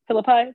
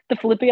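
First: Philippi said FIL-uh-pie, rising; corrected pronunciation. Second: Philippi said fi-LIP-ee, unsure; unsure pronunciation. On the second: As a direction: try Philippi as fuh-LIP-ee, questioning. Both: Real, not acted. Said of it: "I don't".

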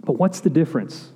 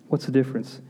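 First: Said in the usual way. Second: Repeated much softer; quiet echo. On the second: Shown as a demonstration. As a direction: let the question sink in softly.

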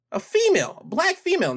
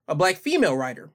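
First: "female" pitched way up, then falling; stress on FEMALE. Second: Said in the usual way. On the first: Real, not acted. Vlogger underlining a key detail for viewers, "female" stressed high. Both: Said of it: "underline that".

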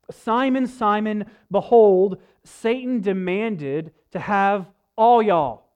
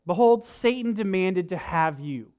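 First: Folksy Southern drawl, slow and emphatic; light Southern accent, playful. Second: Said in the usual way. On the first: Retold or imitated. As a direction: read it like a down-home Southern preacher. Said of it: "our kind of rednecky version of the Bible". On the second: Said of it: "So, so one more time".

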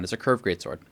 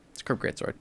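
First: Said in the usual way. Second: Whispered repeat of "It's a curved greatsword". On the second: Shown as a demonstration. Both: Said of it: "unvoiced repeat".

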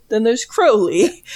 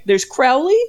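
First: "Crowley" with a long o as in crow, drawn out; Crowley as Crow-ley. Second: "Crowley" with ow as in cow; Crowley as Crow-ley. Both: Shown as a demonstration. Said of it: "there's two different".

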